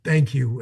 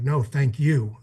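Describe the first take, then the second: First: Said in the usual way. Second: "No, thank you", leaning on the last word "you"; stress on YOU. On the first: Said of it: "they're bawling their eyes out". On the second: Retold or imitated. Veteran answering grateful friends in the service, stress on "you". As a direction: turn the thanks back with weight on "you". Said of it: "it's like".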